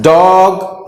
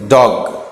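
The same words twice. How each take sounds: First: डॉग with an overlong vowel; wrong pronunciation. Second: डॉग with a short vowel; correct pronunciation. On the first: Teacher shows how not to read it, drawn-out डॉग. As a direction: stretch डॉग out as a mistake. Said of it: "नहीं पढ़ते". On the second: Teacher gives the right reading, short-vowel डॉग. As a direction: keep डॉग brief and low. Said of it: "डॉग नहीं पढ़ते". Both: Shown as a demonstration.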